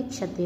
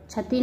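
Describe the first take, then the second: First: Said in the usual way. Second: क्षति as "chhati"; mispronounced. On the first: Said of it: "होता है". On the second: Shown as a demonstration. Teacher showing students an error, क्षति mispronounced "chhati". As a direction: say क्षति with chh for ksh. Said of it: "नहीं होता".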